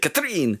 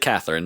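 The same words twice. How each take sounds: First: The name is pronounced with French sounds. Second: The name is pronounced with English sounds. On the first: This is how the characters say it. "they say Catherine" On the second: This is the usual English way to say it. "they don't say Catherine"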